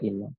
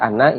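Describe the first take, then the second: First: The first vowel is a close 'i' sound. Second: The first vowel is an open 'a' sound. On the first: The clause cannot be read as a verbal noun. "maka hamzah pada kata inna kita baca kasroh, kita baca inna" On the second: The clause can be read as a verbal noun. "hamzah pada kata innanya kita fathah. Maka menjadi anna"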